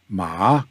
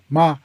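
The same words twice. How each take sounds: First: The pitch rises from middle to high. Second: The pitch is light, short and neutral. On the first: The word means a material like cotton. "Ma is material like cotton" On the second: It marks a sentence as a question. "And then the neutral"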